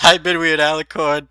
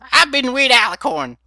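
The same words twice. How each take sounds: First: It is said in the speaker's own voice. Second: It is said in Granny Smith's voice.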